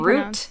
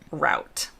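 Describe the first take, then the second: First: It is said with a British pronunciation. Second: It is said with an American pronunciation. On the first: "In the U K, they say" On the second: "In the U S, we say"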